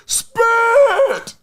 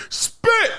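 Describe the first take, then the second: First: High, drawn-out mock yell; big movie quote. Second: High mock movie yell; movie quote. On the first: Quizzing viewers on a movie, exaggerated high cry. Repeats movie line, bigger. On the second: Quizzing viewers on a movie, high quoted cry. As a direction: toss out a high-pitched movie line.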